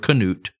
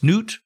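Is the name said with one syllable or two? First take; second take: two; one. First: The name is said as two syllables. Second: The name is said as one syllable. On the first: "they were pronouncing it Canute" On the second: "I don't know if it's Knut"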